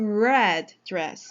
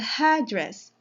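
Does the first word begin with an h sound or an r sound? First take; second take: r sound; h sound. First: The first word begins with an r sound. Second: The first word begins with an h sound. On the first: It names the color of the dress. The speaker calls it right. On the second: It sounds like a different word and confuses the listener. The speaker calls it wrong.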